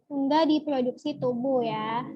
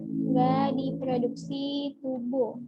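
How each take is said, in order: First: Said in the usual way. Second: "Nggak diproduksi tubuh" stretched out very slowly; slow emphatic repeat. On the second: Shown as a demonstration. Tutor repeating the key fact for students, very slowly. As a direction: drill the point home word by word.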